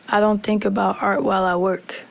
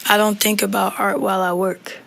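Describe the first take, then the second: No difference in how they are said.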